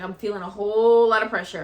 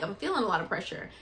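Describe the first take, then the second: First: Louder, pressing urgency; urgent louder report; more urgent. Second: Said in the usual way. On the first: Retold or imitated. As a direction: push the words out with urgency. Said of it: "and I was like". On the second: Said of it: "I'm like, I'm like".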